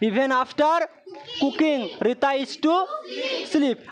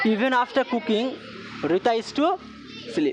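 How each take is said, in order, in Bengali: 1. এটি ধীরে ধীরে, থেমে থেমে বলা হয়েছে। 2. এটি সাবলীলভাবে ও দ্রুত, কোনো দ্বিধা ছাড়াই বলা হয়েছে। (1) "আজকে আমরা এইভাবে বলছি" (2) "তখন আমরা কীভাবে বলবো? ... এইভাবে বলবো।"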